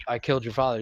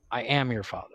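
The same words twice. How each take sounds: First: Said in the usual way. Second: Low, quiet reveal with weight on "am"; stress on AM. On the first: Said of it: "you know the line". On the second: Retold or imitated. Crew revealing the real line to the actor, stress on "am". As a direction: lean on "am" to correct the line. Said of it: "No, it's actually".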